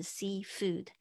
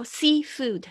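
First: Said in the usual way. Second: Seafood, slow and drawn out, louder; over enunciating. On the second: Shown as a demonstration. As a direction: stretch out each sound of seafood. Teacher models word after clip.

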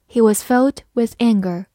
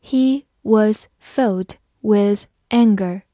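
First: Said in the usual way. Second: Slow, careful sentence reading. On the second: Shown as a demonstration. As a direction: read each word slowly and clearly. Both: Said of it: "好，慢慢来读".

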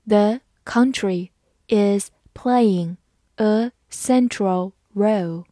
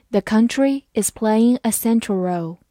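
First: Word-by-word, with clear gaps between words; slow reading. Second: Said in the usual way. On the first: Shown as a demonstration. English teacher reading to learners, slow and separated word by word. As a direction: read slowly for learners, one word at a time. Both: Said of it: "好，慢慢来读".

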